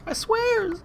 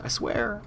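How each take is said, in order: First: A much higher, squeaky mock "I swear"; jokey falsetto oath. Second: Said in the usual way. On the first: Promising viewers in a squeaky mock voice.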